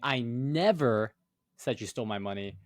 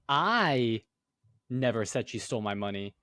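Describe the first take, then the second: First: The word "never" carries the main stress. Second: The word "I" carries the main stress. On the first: It absolutely was not said. "then you're saying, oh, like it absolutely did not happen" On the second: Someone else might have said it. "you're saying, oh, well, I never said it, but somebody else might have"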